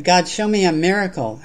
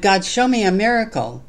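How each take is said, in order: First: Lightly raised plea, read aloud; mild shout. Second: Higher, louder plea, read aloud; restrained shout. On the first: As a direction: call to God with modest lift, as in a recited poem. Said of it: "I shouted". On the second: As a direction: cry out to God with a storyteller's raised voice. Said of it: "And then I shouted". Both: Acted.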